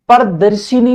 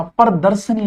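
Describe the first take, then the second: First: प्रदर्शिनी with i after sh; wrong pronunciation. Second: प्रदर्शनी as par-dar-sa-nee; correct pronunciation. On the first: Teacher showing students the mistake, mispronounced demo. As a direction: say प्रदर्शिनी as par-dar-si-nee. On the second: Teacher correcting the word for students, careful pronunciation. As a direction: say प्रदर्शनी with no i after sh. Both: Shown as a demonstration. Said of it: "प्रदर्शिनी नहीं होता".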